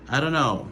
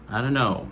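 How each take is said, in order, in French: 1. La phrase se prononce sous une forme réduite. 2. La phrase se prononce sous une forme réduite.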